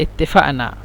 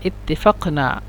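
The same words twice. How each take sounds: First: It is pronounced the colloquial Egyptian way. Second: It is pronounced the way it is written. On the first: "عندما هم ينطقون ينطقون بهكذا" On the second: "أنت تكتب هكذا"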